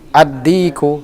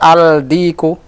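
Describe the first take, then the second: First: The L merges into a doubled D sound. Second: A clear L is heard before the D. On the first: The speaker calls it right. "As-sahih ad-diku" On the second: The speaker calls it wrong. "Salah kalau antum baca al-diku. Khata"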